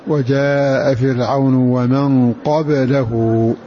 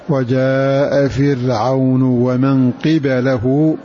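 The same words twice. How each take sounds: First: The qaf has a and the ba has no vowel. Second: The qaf has i and the ba has a. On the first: "فتح القاف وإسكان الباء" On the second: "بكسر القاف وفتح الباء"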